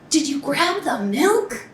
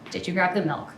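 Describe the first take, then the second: First: It is said in an angry tone. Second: It is said in a flat, neutral tone.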